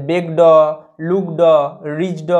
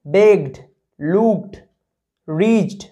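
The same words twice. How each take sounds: First: বেগ ড, লুক ড, রিচ ড, each with a separate "daw"; wrong full "daw" ending. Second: বেগড, লুকড, রিচড as single syllables closing on a short d or t; correct clipped ED ending. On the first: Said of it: "এরকমভাবে কিন্তু উচ্চারণ হবে না". (বেগ ড, লুক ড, রিচ ড: পুরো ড দিয়ে ভুল উচ্চারণ) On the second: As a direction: model বেগড, লুকড, রিচড one by one, no vowel after the final stop. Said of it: "কেমনভাবে উচ্চারণ হবে". (বেগড, লুকড, রিচড: শেষে অর্ধেক ড উচ্চারণ) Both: Shown as a demonstration.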